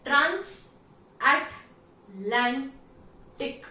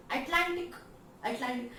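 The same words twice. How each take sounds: First: ट्रांस अटलांटिक slowly split as trans-at-lan-tic, punched; syllable by syllable. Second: Said in the usual way. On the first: Shown as a demonstration. Teacher showing the rhythm of transatlantic, syllable by syllable. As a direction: hit each beat of ट्रांस अटलांटिक loudly with gaps. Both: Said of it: "sound कैसे complete हो रहा है".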